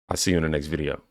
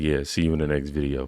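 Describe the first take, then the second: First: It is said in his normal voice. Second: It is said in a low narrator voice.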